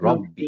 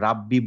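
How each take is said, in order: First: The first vowel is a rounded 'o' sound. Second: The first vowel is an open 'a' sound. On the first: The speaker calls it right. "বলব রব্বি।" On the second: The speaker calls it wrong. "আমরা রাব্বি বলব না।"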